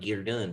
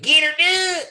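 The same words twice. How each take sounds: First: It is said plainly with moderate energy. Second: It is said with exaggerated, overblown energy. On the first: The speaker calls it right. "he could have just been like" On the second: The speaker calls it wrong. "above where it needed to be"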